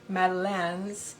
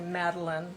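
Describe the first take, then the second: First: It is pronounced with a French accent. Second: It is pronounced with an English accent. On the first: "the French pronunciation would be" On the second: "but we say Madeleine, just like a, a woman's name"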